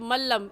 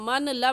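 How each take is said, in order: First: The n merges into a doubled l. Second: The n is pronounced before the l. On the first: The speaker calls it right. "बल्कि कहेंगे मल्लम" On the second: The speaker calls it wrong. "नहीं पढ़ेंगे"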